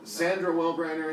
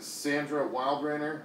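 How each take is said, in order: First: The surname begins with a short 'well' sound. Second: The surname begins with a long 'wild' sound. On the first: The speaker calls it wrong. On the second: The speaker calls it right.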